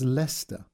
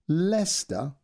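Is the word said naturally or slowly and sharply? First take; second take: naturally; slowly, sharply. First: The word is said naturally, shortened to fewer syllables. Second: The word is said slowly, sharply, every letter sounded. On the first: This is how the word is actually said. "But it's pronounced as Leicester" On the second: This follows how the word is written. "It's written as Leicester. He enunciated Leicester and then said Leicester slowly and sharply"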